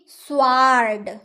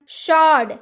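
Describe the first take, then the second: First: A W sound is heard after the S. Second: No W sound is heard after the S. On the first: The speaker calls it wrong. "ना कि स्वार्ड" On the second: The speaker calls it right. "शॉर्ड ना कि स्वार्ड"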